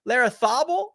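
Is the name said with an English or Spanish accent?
Spanish. The name is said with a Spanish accent.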